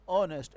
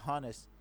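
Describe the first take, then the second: First: "آنسٹ" starting straight on the open vowel; honest with silent h. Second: "ہانسٹ" starting on an audible h; honest with h sounded. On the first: Teacher showing how we read it, "آنسٹ" without h. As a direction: drop the h entirely in "آنسٹ". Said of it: "silent ہے". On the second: Teacher reading it as spelt, "ہانسٹ" with spoken h. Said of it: "لیکن ہم اس کو کیا پڑھتے ہیں؟". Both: Shown as a demonstration.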